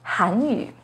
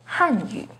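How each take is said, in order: First: The first syllable has a rising tone. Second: The first syllable has a falling tone. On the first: It means the Korean language. "has a second rising tone on Han" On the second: It means the Chinese language. "with a fourth falling tone on Han"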